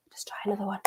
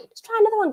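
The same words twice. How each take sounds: First: Whispered to herself; a private whisper while fiddling with the stream. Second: Said in the usual way. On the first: Real, not acted. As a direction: breathe it out under the breath. Whispers to self while fixing stream.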